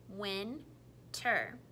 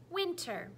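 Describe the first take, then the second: First: Said in the usual way. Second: Chopping syllables. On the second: Shown as a demonstration. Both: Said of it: "you tell me the parts or the syllables".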